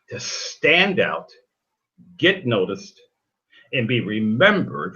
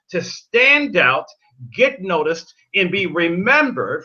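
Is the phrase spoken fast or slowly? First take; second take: slowly; fast. First: The phrase is spoken more slowly. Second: The phrase is spoken quickly. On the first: The speaker calls it right. "Let me get that to you again" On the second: The speaker calls it wrong. "I said that too fast"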